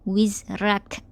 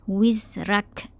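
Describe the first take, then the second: No difference in how they are said.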